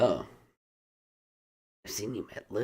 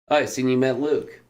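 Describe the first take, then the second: First: It is said with strong attitude on oh. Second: It is said in a neutral, friendly tone.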